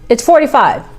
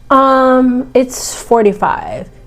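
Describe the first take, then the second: First: It sounds firm and confident. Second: It sounds hesitant and unsure. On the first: The price is fixed and not negotiable. The speaker calls it right. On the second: The price might be open to question. The speaker calls it wrong. "So if you sound unsure"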